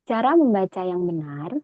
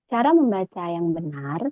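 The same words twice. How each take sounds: Both takes have the same delivery.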